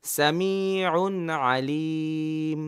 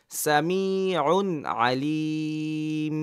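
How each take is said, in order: First: Samiun Alim read very slowly again; slow drill. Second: Samiun Alim read very slowly; slow drill. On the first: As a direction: draw it out for the learners to repeat. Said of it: "আপনাকে তো পড়তে হবে". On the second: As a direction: draw the phrase out syllable by syllable. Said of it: "কোনো সময় দেওয়া যাবে না". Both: Shown as a demonstration.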